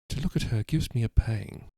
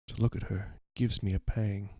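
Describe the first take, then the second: First: It is spoken in an English accent. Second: It is spoken in an American accent. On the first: The speaker calls it right. "just pretend I was doing a British accent, an English accent" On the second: The speaker calls it wrong. "I've been doing an American accent"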